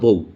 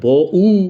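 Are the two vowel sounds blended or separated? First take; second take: blended; separated. First: The final vowel glides into one syllable. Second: The final vowel is said as a separate syllable. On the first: The speaker calls it right. "আমরা বলি আমার বউ" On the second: The speaker calls it wrong. "আমি কি বলি আমার ব-উ? তা বলি না"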